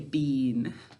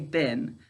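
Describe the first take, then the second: First: The vowel is long, like in bean. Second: The vowel is short, like in bin. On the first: This is a form used only for spelling. "To spell our word correctly, we say bean" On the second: This is the everyday spoken form. "when we're speaking, we say bin"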